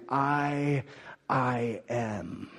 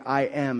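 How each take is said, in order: First: "I, I am" with the first I held and a pause after it; deliberate stress on a repeated "I"; emphatic. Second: Said in the usual way. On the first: Shown as a demonstration. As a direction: double the I, slow and weighty. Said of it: "worded in such a way that it's emphatic". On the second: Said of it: "Rather than saying".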